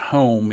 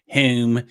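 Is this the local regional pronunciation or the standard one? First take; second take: standard; local. First: It is said with a standard pronunciation. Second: It is said with the local regional accent. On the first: "instead of home" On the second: "in this area, it's"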